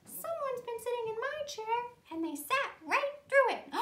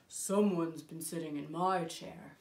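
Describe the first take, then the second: First: High-pitched tiny bear voice; little wee bear. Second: Low, deliberate big bear voice; Papa Bear. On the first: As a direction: squeak it out like a baby bear. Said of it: "And the little wee bear said". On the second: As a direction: speak from the bottom of your range as a big bear. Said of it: "Papa Bear saw that someone". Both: Acted.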